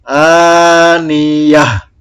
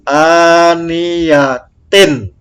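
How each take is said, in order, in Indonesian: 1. Kata ini berakhir dengan bunyi h. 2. Kata ini berakhir dengan bunyi tin. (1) "Kalau berhenti menjadi aniyah" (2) "Contoh ini ya"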